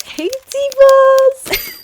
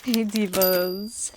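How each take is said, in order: First: Much higher, louder, very drawn-out hey divas; high, loud, stretched call; shouted greeting. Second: Drawn-out, lilting hey divas; slow lilting hello; slow greeting. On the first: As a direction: belt the greeting out to the viewers. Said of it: "vlog greeting repeated". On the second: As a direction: greet the viewers long and sing-song. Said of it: "vlog greeting". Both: Acted.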